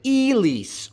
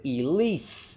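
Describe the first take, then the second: First: Elise with the E punched high; first-syllable stress. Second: Elise with LISE raised and long; second-syllable stress. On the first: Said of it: "Where is the stress in Elise?". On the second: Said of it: "The stress is on the second syllable". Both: Shown as a demonstration.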